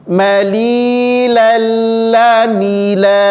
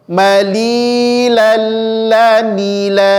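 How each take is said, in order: The two takes are said the same way.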